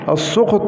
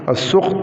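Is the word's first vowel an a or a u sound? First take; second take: a; u. First: The first vowel is an open a sound. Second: The first vowel is a rounded u sound. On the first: "بالفتح" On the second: "والضم"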